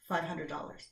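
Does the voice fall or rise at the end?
fall. The pitch stays low and falls at the end. It sounds competent and credible. The speaker calls it right.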